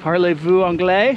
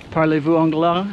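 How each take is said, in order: First: Second try, clearer American-accented French; careful school French with a rising question; foreign accent in French. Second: Stiff American-accented French; rusty school French, hesitant; foreign accent in French. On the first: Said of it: "see if I can practice saying". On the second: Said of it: "Oh, see, I can't even do it". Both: Shown as a demonstration.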